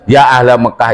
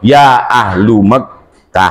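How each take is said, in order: First: The word 'ahl' ends in an 'a' vowel. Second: The word 'ahl' ends in a 'u' vowel. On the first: The phrase is read as the object of the call. "nasob itu mesti fata ... maka mati nasobkan" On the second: The phrase is read as following the caller's form. "Kalau dia dilihat kepada ya ayuhan nas, maka dibaca"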